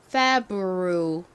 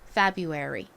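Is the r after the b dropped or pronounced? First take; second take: pronounced; dropped. First: The r after the b is clearly pronounced. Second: The r after the b is dropped. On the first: "이 철자대로 정식으로 발음을 하면" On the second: "R이 소리가 탈락하고 ... 뮤처럼 발음이 되는 경우가 많습니다"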